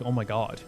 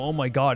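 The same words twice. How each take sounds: First: It sounds like a sinking, dismayed realization. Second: It sounds like an excited, surprised reveal.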